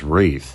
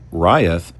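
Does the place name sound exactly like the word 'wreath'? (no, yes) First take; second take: yes; no. First: The name sounds just like 'wreath'. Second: The name does not sound like 'wreath'. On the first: The speaker calls it right. "which is actually said as Wreath" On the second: The speaker calls it wrong. "what I called Rieth"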